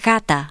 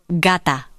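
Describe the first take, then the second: First: The g lets air flow without fully stopping. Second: The g fully stops the air, then releases. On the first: "the letter G is pronounced as a fricative. The flow of air is not completely stopped" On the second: "G is pronounced as a stop. That is, the flow of air is stopped and then released"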